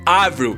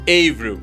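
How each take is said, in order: First: The name is pronounced the French way. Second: The name is pronounced the English way. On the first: The speaker calls it right. "a pronúncia certa é [name]" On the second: The speaker calls it wrong. "e não Avril"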